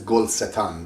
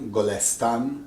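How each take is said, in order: First: The word is split into gol and setan. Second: The word is said smoothly as golestan. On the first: This form fits the rhythm of the poem. "Sometimes it says Gol Setan" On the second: This is the everyday form of the word. "golestan is the natural word"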